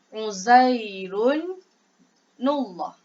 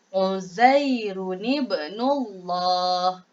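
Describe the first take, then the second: First: No linking vowel is added after the nun. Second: A linking vowel is added after the nun. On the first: The speaker calls it wrong. "kita tak boleh baca Uzairun nullah" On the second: The speaker calls it right. "bacaan dia jadi dia Uzairun ibnullah"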